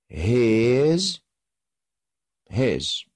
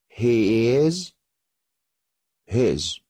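Both takes have the same delivery.

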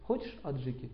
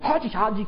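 First: It is said in a calm, plain way. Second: It is said in a fiery, hot-tempered way. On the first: "Почему вы говорите" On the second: "Почему он так говорит? У него преобладает огонь. Очень вспыльчивый"

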